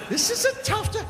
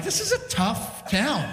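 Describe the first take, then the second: First: Very high, squeezed mock dismay; high-pitched repeat. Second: Slow, slightly raised comic verdict. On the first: Comic repeats verdict on the rough town, squeaky high. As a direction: shoot the pitch way up for comic alarm. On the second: Retold or imitated. Comic reacting to hostile bikers, slow and emphatic. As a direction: draw out TOUGH TOWN in disbelief.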